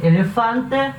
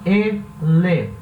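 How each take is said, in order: First: Said in the usual way. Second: Elefante said slowly, syllable by syllable; split into syllables. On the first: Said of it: "a sílaba mais forte é". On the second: Shown as a demonstration. Teacher to students, spelling out syllables slowly. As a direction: break Elefante into its syllables for the class. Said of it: "Tem que separar".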